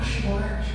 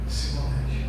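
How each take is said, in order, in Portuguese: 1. A palavra começa com o som de sh. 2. A palavra começa com um som de s simples. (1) "Fala Shibolete" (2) "Não fala a mesma língua"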